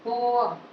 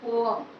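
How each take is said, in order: No difference in how they are said.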